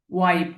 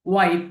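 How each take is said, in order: Both takes have the same delivery.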